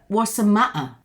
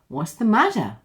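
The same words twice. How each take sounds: First: The t sounds are replaced by glottal stops. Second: The t sounds are flapped like a soft d. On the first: "for the two T's, we have a complete glottal stop" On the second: "these two T's become a flap, a flap T, and therefore go to D"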